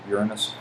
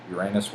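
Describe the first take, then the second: First: Uranus with the stress on the first syllable, "YOOR-uh-nus"; second pronunciation. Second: Uranus with the stress on the second syllable, "your-AY-nus"; trying a pronunciation. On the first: Settling on Uranus after trying it, said "YOOR-uh-nus". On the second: Unsure of Uranus, he tries out "your-AY-nus". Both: Shown as a demonstration. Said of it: "I think that's pronounced Uranus".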